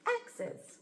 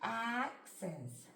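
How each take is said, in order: First: "axes" read quickly, higher, as one word; blended quickly. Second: "Axes" stretched slowly, sound by sound. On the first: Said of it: "then we'll read it together". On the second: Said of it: "try sounding it out". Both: Shown as a demonstration.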